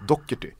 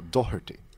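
First: The middle is said with a hard k sound. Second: The middle is said without a hard k sound. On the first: "med hårt K-ljud" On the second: "där ska det vara Doherty"

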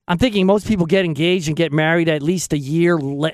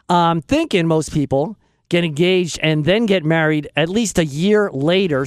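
First: It is said fast. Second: It is said slowly.

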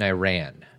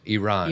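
First: The word sounds like 'I ran'. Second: The word does not sound like 'I ran'. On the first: The speaker calls it wrong. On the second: The speaker calls it right.

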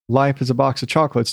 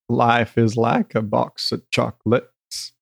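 First: It is a dry reading in his own voice. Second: It is said in a Forrest Gump voice.

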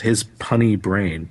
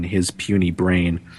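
First: The word is said as 'punny'. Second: The word is said as standard 'puny'. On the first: The speaker calls it wrong. "he mispronounced it as" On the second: The speaker calls it right. "there's that line"

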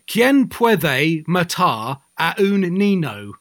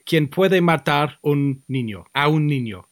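First: It is said with a heavy English pronunciation. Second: It is said with an attempted Spanish pronunciation. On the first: The speaker ignores correct pronunciation. The speaker calls it wrong. "He would say" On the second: The speaker is making an effort at correct pronunciation. The speaker calls it right. "So I would say"

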